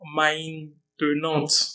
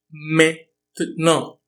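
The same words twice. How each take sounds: First: The word is read out the way it is spelled. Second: The word has the spoken French pronunciation. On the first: The speaker calls it wrong. "Provavelmente algo do tipo maintenant, mas não é como dizemos" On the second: The speaker calls it right. "É maintenant"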